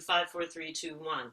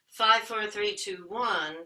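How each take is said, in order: First: The voice is full and resonant from below. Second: The voice is thin and placed up high.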